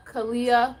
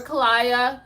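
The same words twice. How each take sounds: First: Kalia said as KAH-lee-uh, light and even; name tried again. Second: Kalia said as ka-LYE-uh, stress on LYE; name tried another way. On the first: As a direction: Kalia with a short "ee" sound, kuh-LEE-uh. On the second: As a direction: Kalia with a long "eye" in the middle, ka-LYE-uh. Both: Real, not acted. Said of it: "If I say your name wrong again".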